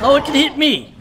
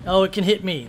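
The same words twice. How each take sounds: First: Higher, louder startled cry; surprised realisation. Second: Said in the usual way. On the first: Real, not acted. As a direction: caught off guard by the hit. Surprised when the creature hits him.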